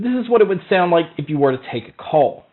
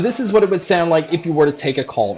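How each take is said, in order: First: The voice is heard without background crowd noise. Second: The voice is heard over background crowd noise. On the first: "here is a mic test" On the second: "here is a mic test for the crowd noise being played"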